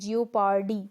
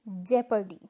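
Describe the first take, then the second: First: The first syllable sounds like 'jee-oh'. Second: The first syllable sounds like 'jep'. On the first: The speaker calls it wrong. "This is incorrect और wrong" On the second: The speaker calls it right. "The correct one"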